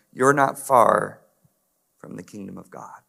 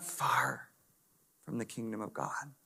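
First: Said in the usual way. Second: Slow, breathy whispered repeat of "You're not far"; hushed echo of Jesus' words to the scribe. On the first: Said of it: "repeated as a whisper". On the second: Shown as a demonstration. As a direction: lean in and whisper it slowly.

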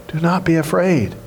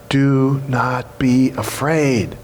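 First: Said in the usual way. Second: Slow reassurance. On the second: Shown as a demonstration. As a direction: let every word land gently. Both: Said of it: "first thing you need to hear".

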